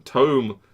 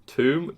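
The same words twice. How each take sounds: First: "Tome" with an oh, rhyming with dome; corrected pronunciation. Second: "Tomb" with a long oo, silent b; habitual pronunciation. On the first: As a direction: say "Tome" as tohm, louder. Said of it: "You're supposed to say Tome". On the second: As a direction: say "Tomb" to rhyme with room. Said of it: "I pronounce them both as Tomb". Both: Shown as a demonstration.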